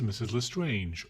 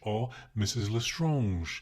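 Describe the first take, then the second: First: The name is pronounced the English way. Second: The name is pronounced the French way. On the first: The speaker calls it right. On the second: The speaker calls it wrong.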